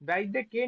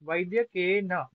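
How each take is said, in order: First: The word ends on a bare 'n' sound. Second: The word ends with a short 'a' vowel. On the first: The speaker calls it wrong. "वैद्य के नहीं है" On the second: The speaker calls it right. "नकारोत्तरवर्ती आकार का उच्चारण भी करना होगा"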